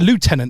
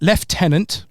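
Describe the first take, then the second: First: It is said with an American pronunciation. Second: It is said with a British pronunciation.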